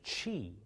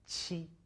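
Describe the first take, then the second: First: The first sound is like English 'ch'. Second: The tongue tip rests behind the lower front teeth. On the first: The speaker calls it wrong. "It's not Qi" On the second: The speaker calls it right. "but Qi"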